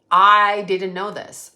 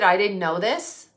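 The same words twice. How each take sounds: First: Long, loud stress on "I"; slow, punched "I" in "I didn't know this"; emphatic repeat. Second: Said in the usual way. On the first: Real, not acted. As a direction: lean hard on "I", slowly.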